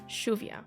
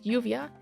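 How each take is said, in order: First: The word begins with an SH sound. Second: The word begins with a Y sound. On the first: "pronounced with a S H sound" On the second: "said with a Y sound"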